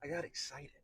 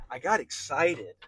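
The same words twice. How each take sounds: First: Said in the usual way. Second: Louder and slower, leaning on got; slow emphatic burst of excitement; excited, emphatic. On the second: Real, not acted. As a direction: let the excitement swell as you repeat it. Repeats the phrase for emphasis.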